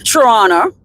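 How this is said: It is said the way Canadians say it. "as the Canadians might they might say say it"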